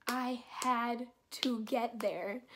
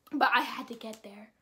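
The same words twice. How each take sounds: First: "I had to get there" spaced out, slow and soft; dramatic slow repeat. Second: Said in the usual way. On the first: Real, not acted. Telling how badly they needed to get there, slow and emphatic.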